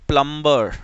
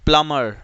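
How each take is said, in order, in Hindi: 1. यह शब्द B की आवाज़ के साथ बोला जाता है। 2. यह शब्द B की आवाज़ के बिना बोला जाता है। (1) "you call it प्लम्बर, no" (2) "it's प्लमर"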